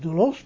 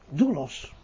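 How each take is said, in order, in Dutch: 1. De klemtoon ligt op de tweede lettergreep. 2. De klemtoon ligt op de eerste lettergreep. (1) "niet ... doulos, nee, op de eerste lettergreep" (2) "dan legt u de klemtoon op de eerste lettergreep"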